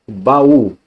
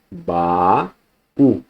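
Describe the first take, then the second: First: Said in the usual way. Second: "baú" split slowly as ba-ú; "baú" in two separate syllables. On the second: Shown as a demonstration. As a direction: hold "ba", pause, then "ú". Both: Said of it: "só que em sílabas diferentes".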